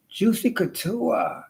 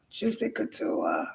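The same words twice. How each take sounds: First: Juicy Couture higher and slow; drawn-out brand name. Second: Juicy Couture dropped low and soft; hushed brand name. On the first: Showing off her Juicy Couture, drawn out higher. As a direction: savor "Juicy Couture" slowly, a touch higher. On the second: Showing off her Juicy Couture, dropped low and soft. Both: Shown as a demonstration. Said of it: "I got some Juicy Couture".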